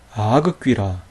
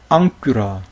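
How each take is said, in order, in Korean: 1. 감마는 센 g로 발음해요. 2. 감마는 ng 소리로 발음해요. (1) "그렇지 않다는 거예요" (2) "이렇게 발음했다는 거예요"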